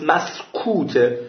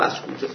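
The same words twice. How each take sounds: First: Drawn-out مسکوته with a falling close; slow emphatic. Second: مسکوته repeated softly, dropping away. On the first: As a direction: stretch out مسکوته slowly for emphasis. Repeats the key word, drawn out. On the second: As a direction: let مسکوته fall quietly as an echo. Repeats the key word, softly. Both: Shown as a demonstration.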